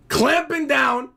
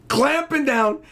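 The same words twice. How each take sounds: The two takes are said the same way.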